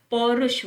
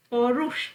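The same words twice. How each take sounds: First: पौरुष with a short u; correct pronunciation. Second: पौरुष with a long oo; wrong pronunciation. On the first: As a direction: say पौरुष as pau-rush. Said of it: "पौरुष होता है". (पौरुष में छोटा 'रु') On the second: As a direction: stretch पौरुष as pau-roosh. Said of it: "पौरुष नहीं होता". (पौरुष में लंबा 'रू') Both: Shown as a demonstration.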